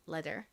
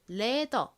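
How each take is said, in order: First: The word ends with an r sound. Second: The word ends without an r sound. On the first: "실제 미국식 영어 발음으로는 가죽을 leather이라고 합니다" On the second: "이 r의 리을 받침을 빼고 표기를 합니다. 그래서 leather 이렇게 표기하고 발음하는"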